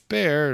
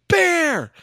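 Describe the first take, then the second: First: The word is said calmly and quietly. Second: The word is yelled loudly.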